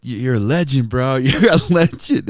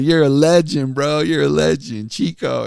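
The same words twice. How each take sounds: First: Louder, higher hype from a fan; lightly imitated rapper. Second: Higher, louder teasing imitation; mock admiration. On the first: Local rapper greets radio host, lightly imitated hype. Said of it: "he's just like". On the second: Coworkers make fun of the radio host, mock admiration. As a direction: tease with over-hyped praise. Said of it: "my coworkers make fun of me".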